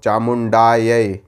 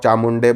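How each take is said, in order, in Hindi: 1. शब्द 'aay' ध्वनि से खत्म होता है। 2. शब्द छोटी 'e' ध्वनि से खत्म होता है। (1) "ये मंत्र का उच्च सही उच्चारण है" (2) "चामुंडाय को आप चामुंडे बोल रहे हो"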